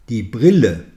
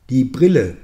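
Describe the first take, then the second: The two takes are said the same way.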